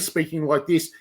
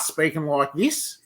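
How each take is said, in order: First: It is said in a mild Australian accent. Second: It is said in a broad, exaggerated Australian accent. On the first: "So instead of speaking like this" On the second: "you'd start speaking like this"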